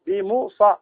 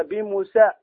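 First: "بموصى" with heavy emphatic saad; pronounced with saad. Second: "بموسى" with a thin s instead of saad; mistaken seen. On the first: Teacher modelling the correct reading, "بموصى" with emphatic saad. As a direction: say "بموصى" with a thick, dark s. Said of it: "إلا بالصاد". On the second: Teacher showing a common mistake, "بموسى" with seen. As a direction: say "بموسى" with plain, light seen. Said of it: "بعضهم يقرأ هكذا". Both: Shown as a demonstration.

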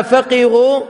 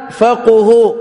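First: فقهوا said "faqihu", i-vowel after qaf; "qi" in the middle of فقهوا; kasra form. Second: فقهوا said "faquhu", u-vowel after qaf; "qu" in the middle of فقهوا; damma form. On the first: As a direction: pronounce فقهوا as fa-QI-hu. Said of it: "بالكسر". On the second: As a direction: pronounce فقهوا as fa-QU-hu. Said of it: "فالتي بالضم فيها مدح". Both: Shown as a demonstration.

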